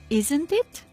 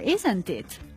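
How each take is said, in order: First: The pitch rises at the end of the tag. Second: The pitch falls at the end of the tag. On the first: The speaker is unsure and is really asking. "my tone of voice rose in the end of the question tag" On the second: The speaker is sure and expects agreement. "my tone of voice at the question Ted fell"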